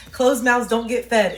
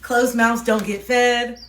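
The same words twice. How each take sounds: First: Slow, emphatic British accent, louder; loud, deliberate British-accented saying. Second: Slow, louder British accent, leaning on fed; a firmer British-accented retake of the proverb. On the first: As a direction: lay down the proverb in a British voice. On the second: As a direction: repeat the saying firmly in a British voice. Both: Real, not acted. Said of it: "why I was having the accent".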